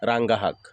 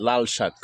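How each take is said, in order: First: রাঙ্গা হাক with h in place of s in হাক; Barisal dialect. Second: Said in the usual way. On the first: Shown as a demonstration. Telling viewers what locals call red spinach, Barisal dialect. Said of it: "আমরা বলি". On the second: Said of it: "শুদ্ধ ভাষায় বলে লাল শাক".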